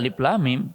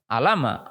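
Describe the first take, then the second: First: Each letter is spoken separately by its name. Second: The letters are blended into one short word. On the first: It follows the rules of Quran recitation. The speaker calls it right. "kata guru tajwid ya alif lam mim bacanya" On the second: It follows ordinary Arabic spelling rules. The speaker calls it wrong. "Kalau menurut ejaan bahasa kan alama"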